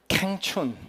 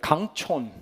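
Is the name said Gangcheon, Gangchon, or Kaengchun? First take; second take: Kaengchun; Gangchon. First: The name sounds like 'kaeng-chun'. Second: The name sounds like 'gang-chon'. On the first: "너무 촌스러운 거예요" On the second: "레스토랑 이름도 아니고요"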